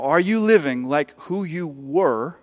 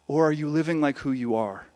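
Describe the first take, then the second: First: Slow, the word were lifted in a questioning rise; stress on were. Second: Are landed firmly with a falling close; stress on are. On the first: Preacher asking the congregation, stressing were with a rise. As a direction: lean on were and let it rise. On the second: Preacher answering the contrast, falling firmly on are. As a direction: settle down onto are, softer and final. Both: Shown as a demonstration. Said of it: "contrast were against are".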